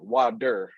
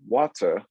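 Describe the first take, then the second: First: It is said in an American accent. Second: It is said in a South African accent. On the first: "the Americans say water" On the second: "We say water"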